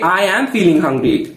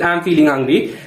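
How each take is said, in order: First: It is said with lively, expressive delivery. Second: It is said flatly, without expression. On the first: The speaker calls it right. "with expression" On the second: The speaker calls it wrong. "Don't say that"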